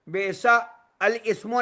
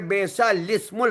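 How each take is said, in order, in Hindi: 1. 'al' से पहले का हमज़ा बोला जाता है। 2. 'l' सीधे उसके बाद वाले स्वर में मिल जाता है। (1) "नहीं पढ़ेंगे" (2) "बल्कि पढ़ेंगे"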